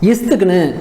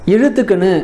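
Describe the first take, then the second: First: The consonant after the first 'i' is s. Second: The consonant after the first 'i' is zh. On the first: "இஸ்துக்குன்னு அப்படின்னு சொல்லுவாங்க" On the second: "இழுத்துக்குன்னு அப்படின்ட்டு உச்சரிக்க மாட்டாங்க"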